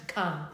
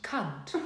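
First: Put-on London accent. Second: Proper English. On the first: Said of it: "like, London accent". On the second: Shown as a demonstration. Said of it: "I say it in a, like, proper English way".

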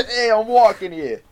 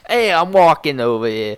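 First: Slow, higher hammed-up Boston yell; Boston tough guy. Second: A hint of a brash Boston accent; mock street yell, Boston style; Boston tough guy. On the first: Friend echoing the Boston bit, hammed-up Boston accent. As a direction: stretch it out like a cartoon Boston cabbie. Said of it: "Boston impression repeated". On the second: Friend doing a Boston guy to tease his friend, light Boston accent. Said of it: "Boston New Yorker impression".

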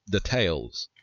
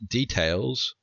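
First: "details" as duh-TAILS; variant pronunciation. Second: "details" as DEE-tails; variant pronunciation. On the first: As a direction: say "details" slowly with a short, weak first syllable. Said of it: "aren't standardized". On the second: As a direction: say "details" slowly with a long first syllable. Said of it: "pronunciations can be interesting". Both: Shown as a demonstration.

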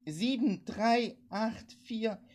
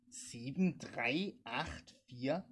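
First: Numbers cried high and loud; desperate woman calling digits over the radio. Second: Each number in a questioning rise; tentative, questioning count; puzzled repeating. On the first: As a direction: call out each number urgently, pitch raised. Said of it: "rief die Frau". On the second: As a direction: repeat the digits doubtfully, at normal pitch. Martin puzzled, repeating heard numbers. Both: A narrator's reading.

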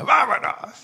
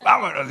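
First: Much higher, put-on voice of Lupita; Lupita's urging. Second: Lupita's urging. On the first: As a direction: pitch it up high, like Lupita hurrying someone off. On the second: Retold or imitated. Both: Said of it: "dice Lupita".

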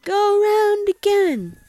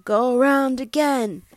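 First: Yelling dog. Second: Higher-pitched, mildly raised dog yell; a first, restrained storybook yell; mock yelling. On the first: Acted. Parent voices the yelling dog for child, high loud yell. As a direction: holler it way up high like an excited storybook dog. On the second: Parent voices the yelling dog for child, mild mock yell. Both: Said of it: "there's one dog yelling".

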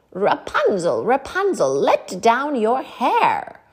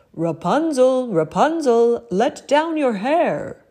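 First: Loud, slow calling witch; a witch calling up the tower. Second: Loud, slow call up the tower; a prince calling to the window. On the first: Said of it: "she would call out". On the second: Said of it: "he too called". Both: A narrator's reading.

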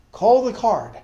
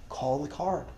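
First: Said in the usual way. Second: Far-off, much softer inner voice; inner whisper. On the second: Retold or imitated. The still small voice in his head, softly urging him. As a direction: breathe it like a voice inside.

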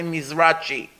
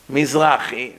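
First: Mizrachi with a soft American h; "Mizrachi" said easy for the customer service agent; anglicized Mizrachi. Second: Mizrahi with a throaty ch on the h; Hebrew Mizrahi. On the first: Rabbi shows how he simplifies his name for Americans: soft Mizrachi. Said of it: "to save time". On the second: Rabbi pronounces his own name the Hebrew way: throaty Mizrahi. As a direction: say "Mizrahi" with a rasping middle h. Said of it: "my name". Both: Shown as a demonstration.

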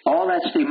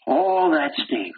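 First: Said in the usual way. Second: All that steam stretched slow and pitched high; "all that steam" said slowly, pitched up; drawn-out emphasis. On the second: Shown as a demonstration. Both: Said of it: "So I really get all".

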